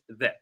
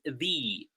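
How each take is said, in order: First: It ends in a short, neutral 'uh' vowel. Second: It ends in a long 'ee' vowel. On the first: "followed by a consonant, we pronounce it the" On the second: "followed by a vowel, it's pronounced the"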